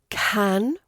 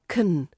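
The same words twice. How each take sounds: First: The word is said with a full vowel. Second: The word is said with a weak reduced vowel. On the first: "Then we have can" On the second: "which becomes can"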